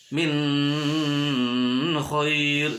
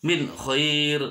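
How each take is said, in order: First: Sung, "min khair" with a very long droning n; sung, "min khair", n stretched out nasally; wrong hummed reading. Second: "min khair" with a short crisp n; "min khair", no hum on the n; clear idhar reading. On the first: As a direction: hold the n of "min" as a hum into "khair". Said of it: "tidak boleh dibaca". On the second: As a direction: cut "min" cleanly before "khair". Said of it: "harus jelas". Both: Shown as a demonstration.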